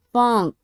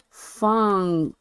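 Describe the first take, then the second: First: "funk" said short, with a clear N; careful pronunciation. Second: "funk" drawn out on a long N; emphasis on the N. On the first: Showing a word they trip over, careful pronunciation. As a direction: say funk deliberately, N sounded. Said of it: "It don't sound like that if I say it fast". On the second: Explaining the word they meant, N emphasized. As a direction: stretch funk, leaning on the N. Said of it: "Emphasis on the N". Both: Shown as a demonstration.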